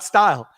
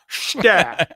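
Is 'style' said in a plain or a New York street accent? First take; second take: plain; New York. First: The word is said in a plain, standard way. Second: The word is said with a New York street accent. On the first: "not style" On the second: "I said it like that"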